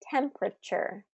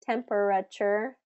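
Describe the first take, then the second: First: One unstressed syllable is dropped. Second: Every syllable is fully pronounced. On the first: The speaker calls it right. "We say" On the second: The speaker calls it wrong. "We don't say"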